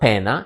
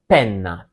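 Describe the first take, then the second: First: The middle n sound is short and single. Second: The middle n sound is long and strong. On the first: The speaker calls it wrong. "So not pena" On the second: The speaker calls it right. "you have to pronounce it uh, strongly and highlight it's, it's a double letter"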